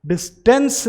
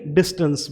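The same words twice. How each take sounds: First: डिस्टेंस with a full "e", "dis-TENS"; higher voice, stress the "tens" of डिस्टेंस; wrong pronunciation. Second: डिस्टेंस with a schwa, "DIS-tuns"; correct pronunciation. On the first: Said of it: "डिस्टेंस नहीं". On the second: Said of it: "डिस्टेंस बोलेंगे". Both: Shown as a demonstration.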